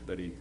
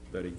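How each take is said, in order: Both takes have the same delivery.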